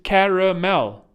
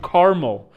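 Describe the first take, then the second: First: The middle vowel is clearly pronounced. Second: The middle vowel is dropped from the word. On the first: This is the proper form of the word. The speaker calls it right. "It's caramel. That's the word for it" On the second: This is how Americans say the word. The speaker calls it wrong. "Americans call it caramel. You were just too lazy to pronounce the other A"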